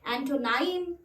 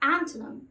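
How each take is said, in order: First: The last syllable rhymes with 'time'. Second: The last syllable rhymes with 'him'. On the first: The speaker calls it wrong. "मैंने अक्सर लोगों को इस शब्द को एंटोनाइम है ना ये बोलते हुए सुना, जबकि वो एंटोनाइम नहीं होता है" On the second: The speaker calls it right. "उसका राइट प्रोनाउंसिएशन है एंटोनिम"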